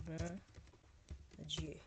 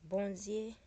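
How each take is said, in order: First: "bon Dieu" as two separate French words; French pronunciation. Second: "Bondye" said the Creole way as one word; Creole pronunciation. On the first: Contrasting with Creole, French pronunciation of "bon Dieu". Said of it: "This is the French word". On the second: Teaching a favorite word, Creole pronunciation of "Bondye". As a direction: say "Bondye" joined up, ending in dye. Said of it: "Let me teach you that word". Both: Shown as a demonstration.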